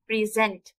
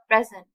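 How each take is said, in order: First: The stress is on the second syllable. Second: The stress is on the first syllable. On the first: "एस के ऊपर stress पड़ रहा है" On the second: "पी के ऊपर stress पड़ेगा"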